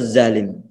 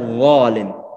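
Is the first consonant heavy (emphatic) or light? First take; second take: light; heavy. First: The first consonant is light and thin. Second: The first consonant is heavy and emphatic. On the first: This is how Indonesians say the word. The speaker calls it wrong. "Orang Indonesia dari kata kata zalim ini nanti berubah ke zalim" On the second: This is the original Arabic pronunciation. The speaker calls it right. "Aslinya adalah zalim. Huruf dha pengucapannya adalah tebal"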